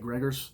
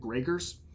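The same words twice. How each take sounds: First: The name is said loosely, with a Midwestern accent. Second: The name is said carefully, in its original form. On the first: The speaker calls it wrong. "fall into my lazy Midwestern tongue" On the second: The speaker calls it right. "the per- correct pronunciation"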